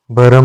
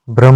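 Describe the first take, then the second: First: भरम with a vowel after भ; wrong form. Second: भ्रम with a joined भ्र; correct form. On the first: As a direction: say भरम as three syllables. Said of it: "भरम नहीं होता है". (गलत उच्चारण भरम) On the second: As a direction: say भ्रम with bhr together. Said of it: "भ्रम होता है". (सही उच्चारण भ्रम) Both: Shown as a demonstration.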